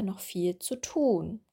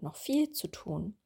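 First: The word tun carries the main stress. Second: The word viel carries the main stress. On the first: The speaker calls it right. "richtig wäre noch viel zu tun" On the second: The speaker calls it wrong. "wurde viel betont"

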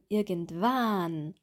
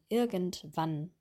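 First: The vowel in 'wann' is drawn out long. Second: The vowel in 'wann' is clipped short. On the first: The speaker calls it wrong. "nicht mehr sagen" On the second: The speaker calls it right. "Wann? Kurz"

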